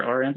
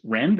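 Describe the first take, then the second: First: "R env" with the R said as a letter; letter pronounced separately. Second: "renv" said as a single word; pronounced as one word. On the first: Speaker offers listeners the other pronunciation, "R env" with a separate R. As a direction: say the letter name R, then "env". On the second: Speaker offers listeners one possible pronunciation, "renv" as one word. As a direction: say "renv" as one blended word, not spelled out. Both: Shown as a demonstration. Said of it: "unsure how to pronounce that".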